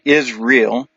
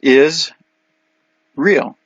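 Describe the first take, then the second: First: The word is said as one blended word. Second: The word is split into two words. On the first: "Israel's the way we say it" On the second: "the way you say Israel is is real"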